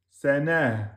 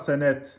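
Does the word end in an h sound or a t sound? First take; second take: h sound; t sound. First: The word ends with an h sound. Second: The word ends with a t sound. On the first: The speaker calls it right. "vous finissez bien avec un ha, soukoun" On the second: The speaker calls it wrong. "Ça n'existe pas, sanet, sur un tamarbota"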